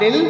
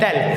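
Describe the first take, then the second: First: The vowel sounds like the one in 'dill'. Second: The vowel sounds like the one in 'dell'. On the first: The speaker calls it wrong. "Not दिल" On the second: The speaker calls it right. "It is rather pronounced डेल"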